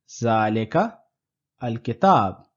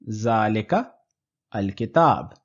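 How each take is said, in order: First: There is a break between the two words. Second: The same.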